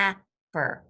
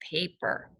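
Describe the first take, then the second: First: The first vowel is a short a sound. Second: The first vowel is a long a sound. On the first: The speaker calls it wrong. "Not a word I've heard before" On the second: The speaker calls it right. "try it with the long A"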